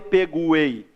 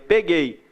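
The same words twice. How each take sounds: First: The u after the g is pronounced. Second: The u after the g is silent. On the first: "eu não falei peguei" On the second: "falei peguei. O U não aparece"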